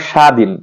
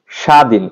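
Both takes have the same delivery.

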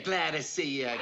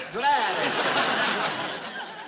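First: Said in the usual way. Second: Slow, higher, laughing hello; hearty laughing welcome; 1 laughing greeting. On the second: Acted. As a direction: draw it out with a big laugh. Greeting client, then again, laughing.

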